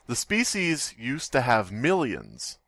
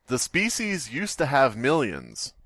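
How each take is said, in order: Both takes have the same delivery.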